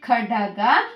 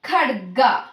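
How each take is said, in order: First: An extra vowel splits the d and g. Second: The d and g join with no vowel. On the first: The speaker calls it wrong. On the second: The speaker calls it right.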